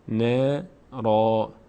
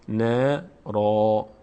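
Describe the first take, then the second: No difference in how they are said.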